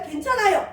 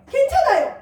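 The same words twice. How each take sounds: First: Said in the usual way. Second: 괜찮아요 said much higher and louder; excited reassurance. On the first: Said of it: "뒤에 건 잊어버리고". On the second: Shown as a demonstration. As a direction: lift 괜찮아요 into a cheer. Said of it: "또 하면 돼요".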